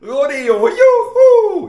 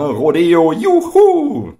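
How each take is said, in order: First: The cheer sounds loud and enthusiastic. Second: The cheer sounds half-hearted and unconvincing.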